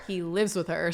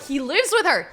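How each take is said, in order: First: Said in the usual way. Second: High, raised exclamation; excited realization. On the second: Real, not acted. Player realizing how he'll seize her property, high excited exclamation. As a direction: blurt it out as a discovery. Realization, emphatic first take.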